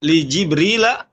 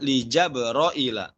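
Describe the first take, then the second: First: The name is said with i vowels, Jibrila. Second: The name is said with a and o vowels, Jabroila.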